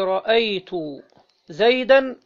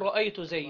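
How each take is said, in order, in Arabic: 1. تنتهي الكلمة الأخيرة بصوت 'an' مضاف. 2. تنتهي الكلمة الأخيرة على 'd' ساكنة بلا صوت إضافي. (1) "اللي احنا بنقولها كده بالنصب" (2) "وتقف عليها بالسكون"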